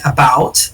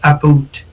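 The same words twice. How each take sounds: First: The vowel is the usual open 'ow' sound. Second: The vowel is raised, closer to 'aboot'. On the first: "when they say like about" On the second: "they say like about"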